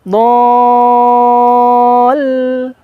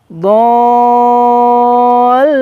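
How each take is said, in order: The two takes are said the same way.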